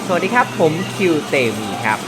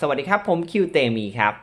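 First: The voice is heard over loud background noise. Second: The voice is heard in a quiet room. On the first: "ในสภาพแวดล้อมที่มีเสียงรบกวนนะครับ" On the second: "โดยที่อยู่ในสภาพแวดล้อมที่ค่อนข้างเงียบนะครับ"

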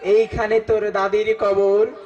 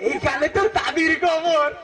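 First: It is recited in a plain, natural poetic manner. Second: It is recited while laughing throughout. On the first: Someone recites the poem sincerely. "Naturally কবিতা আবৃত্তি করতে আইছে" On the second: Someone who always laughs recites the poem. "সে সবসময় হাসে"

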